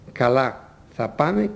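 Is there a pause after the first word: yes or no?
yes. There is a pause after the first word. The first word is a separate reply meaning okay. "Στα πρώτα, μετά το «καλά» ακολουθεί παύση"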